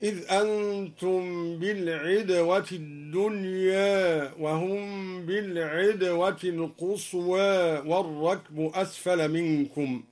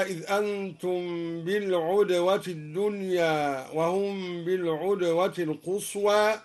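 First: "بالعدوة" with i after ayn, "الدنيا" and "القصوى" ending toward e; kasra and taqlil. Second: Said in the usual way. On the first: Shown as a demonstration. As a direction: recite "بالعدوة" as bil-idwa, tilting final a of "الدنيا" to e. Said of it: "قرأ الدوري بكسر العين مع تقليل الدنيا". (كسر عين "بالعدوة" وتقليل "الدنيا" و"القصوى") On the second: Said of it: "بكسر العين مع تقليل الدنيا".

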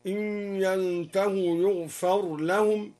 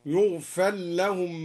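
First: "يغفر لهم" with the r sounded before l; clear ra. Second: "يغفر لهم" as yughfal-lahum; ra merged into lam. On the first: (إظهار الراء في "يغفر لهم") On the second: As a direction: drop the r into a doubled l in "يغفر لهم", slowly. (إدغام الراء في اللام في "يغفر لهم") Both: Shown as a demonstration. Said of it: "هكذا".

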